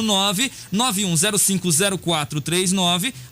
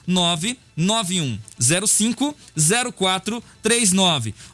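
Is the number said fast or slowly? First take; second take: fast; slowly. First: The number is said at normal speed. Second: The number is said slowly.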